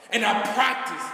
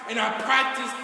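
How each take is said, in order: Both takes have the same delivery.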